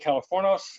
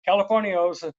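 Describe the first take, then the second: First: No 'ee' sound is heard before the ending. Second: An 'ee' sound is heard before the ending. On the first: The speaker calls it right. "It's actually Californos. The I is silent" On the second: The speaker calls it wrong. "gringos would say Californios"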